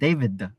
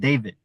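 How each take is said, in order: First: It ends with an extra schwa vowel. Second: It ends with the final d left out. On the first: "inserting a schwa sound at the end" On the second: "without the D sound"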